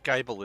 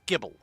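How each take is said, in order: First: The first vowel sounds like 'eye'. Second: The first vowel sounds like 'ih'. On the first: The speaker calls it wrong. "it's not Geibel" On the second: The speaker calls it right. "it's Gibble"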